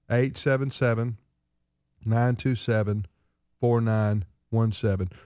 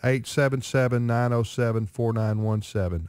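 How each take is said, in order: First: The number is said slowly. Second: The number is said fast.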